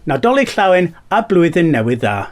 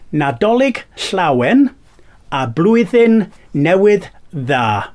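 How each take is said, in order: First: The phrase is spoken at a normal speed. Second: The phrase is spoken slowly and carefully.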